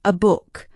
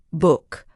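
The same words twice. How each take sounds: First: A said as a short relaxed uh before book; schwa demo. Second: Said in the usual way. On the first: Shown as a demonstration. Teacher modelling the schwa on a for learners, slow and clear. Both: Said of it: "We say".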